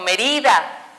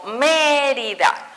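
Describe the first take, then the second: First: The stress is not on the first syllable. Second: The stress is on the first syllable. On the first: The speaker calls it wrong. "no digo Mérida" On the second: The speaker calls it right. "digo Mérida"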